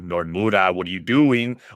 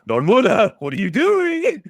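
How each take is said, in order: First: It sounds annoyed and exasperated. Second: It sounds excited and thrilled.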